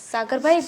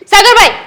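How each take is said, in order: First: Said in the usual way. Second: Loud call, higher, to get his attention; sister-in-law calling loudly for Sagar. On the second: Acted. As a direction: call his name out sharply.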